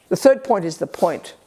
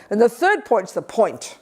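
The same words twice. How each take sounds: First: Said in the usual way. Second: Point's the point said slowly; slow emphasis on point. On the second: Shown as a demonstration. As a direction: draw out the third point's the point.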